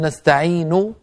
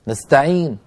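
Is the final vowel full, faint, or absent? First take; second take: full; absent. First: The final vowel is fully voiced. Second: The word ends with no audible vowel. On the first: "هكذا بضمة كاملة" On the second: "ضمة هكذا بدون صوت"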